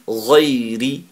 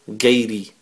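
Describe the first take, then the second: First: It starts with a throaty gh sound. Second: It starts with a hard English g. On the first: The speaker calls it right. "It's actually ghairi" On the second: The speaker calls it wrong. "they say the G from the English language"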